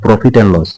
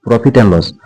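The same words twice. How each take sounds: The two takes are said the same way.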